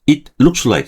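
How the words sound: Each word is said separately, in a choppy way. The speaker calls it wrong. "이게 뚝뚝 떨어져 가거든요"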